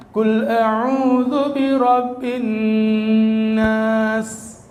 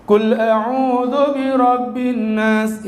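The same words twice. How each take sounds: First: "birabbin" with the nun doubled and held long before "nas", slow; slow chanted line, long held nun; nun held with tasydid. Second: "birabbin nas" with the nun barely held, slow; slow chanted line, nun rushed; wrong tajwid recitation. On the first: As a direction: recite "Qul a'udzu birabbin nas", holding the nun. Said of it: "Kudunya nunnya tasdid, guna ditahan". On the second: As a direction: recite "Qul a'udzu birabbin nas" with the nun not doubled. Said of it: "Itu bener tapi salah". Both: Shown as a demonstration.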